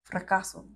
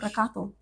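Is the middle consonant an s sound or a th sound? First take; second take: s; th. First: The middle consonant is a plain s sound. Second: The middle consonant is a lisped th sound.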